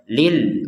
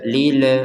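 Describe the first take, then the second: First: The l ends sharply with no vowel. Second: An extra e vowel follows the l. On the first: The speaker calls it right. "Langsung aja lil muttaqin" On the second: The speaker calls it wrong. "enggak ada e e-nya enggak ada"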